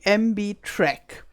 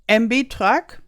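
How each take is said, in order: First: The name is said with an English pronunciation. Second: The name is said with a German pronunciation. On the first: "when I pronounce it in English" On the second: "like the Germans call it"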